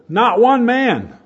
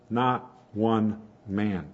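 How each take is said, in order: First: NOT ONE MAN punched high, loud and drawn out; emphatic. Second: NOT, ONE, MAN spaced out slowly and pitched low; quietly emphatic. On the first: Preacher quoting scripture on the untamable tongue, loudly emphatic. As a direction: proclaim NOT ONE MAN at full force. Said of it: "And it's emphatic. It says". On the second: Preacher repeating what the Bible says, slow deliberate emphasis. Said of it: "And it's emphatic". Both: Retold or imitated.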